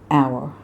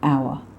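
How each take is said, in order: First: The R sound is clearly pronounced. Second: The R sound is dropped. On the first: The speaker calls it right. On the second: The speaker calls it wrong.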